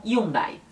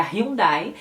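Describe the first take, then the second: First: Hyundai with no h, ee-OON-dai; Spanish Hyundai. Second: Hyundai with a breathy h, hee-OON-dai; Brazilian Hyundai. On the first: Teacher demonstrating Spanish Hyundai, silent h. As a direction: drop the h in Hyundai. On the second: Teacher contrasting Brazilian Hyundai, h sounded. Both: Shown as a demonstration. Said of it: "que eles falam Hyundai".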